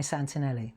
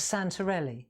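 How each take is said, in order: First: "Santinelli" with an N for the R; mispronounced surname. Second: Said in the usual way. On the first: Shown as a demonstration. Customer getting the demonstrator's name wrong, "Santinelli" with an N. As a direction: say "Santinelli", san-tin-ELLY. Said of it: "she called me Santinelli". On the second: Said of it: "but she called me Santinelli".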